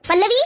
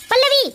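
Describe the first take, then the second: First: First summons, rising at the end; calling out. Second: Higher, more insistent second summons; calling loudly. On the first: Upset husband summons wife after son's complaint, calling out. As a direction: call the wife over, voice lifting. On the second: Upset husband summons wife a second time, calling loudly. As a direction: raise the pitch and demand she come. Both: Acted. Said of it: "इतनी जोर-जोर से आवाज क्यों लगा रहे".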